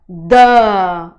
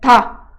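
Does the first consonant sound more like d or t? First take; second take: d; t. First: The consonant is a voiced Portuguese d sound. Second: The consonant is a crisp, dry t-like sound. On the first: "no português" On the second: "parece um T de tatu"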